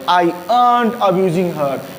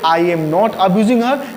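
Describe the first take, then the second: First: 'Am not' is squeezed into one contracted word. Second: Both words of 'am not' are said in full.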